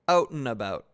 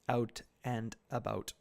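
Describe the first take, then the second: First: The T sounds soften toward an N sound. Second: The T and D sounds are clearly pronounced. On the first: "there's more of an N as opposed to a T in it" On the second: "very clearly, you know, you can hear the T's and the D's"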